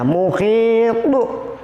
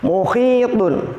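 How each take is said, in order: First: The word ends on a stopped, bouncing t. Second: The word ends with a nasal n sound. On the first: The reading stops at the end of the verse. "tapi ada pantulannya" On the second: The reading continues without stopping. "belum diwakafkan atau belum diberhentikan"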